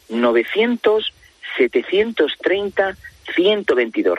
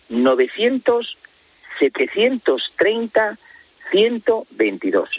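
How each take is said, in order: First: The number is said at normal speed. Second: The number is said slowly and carefully.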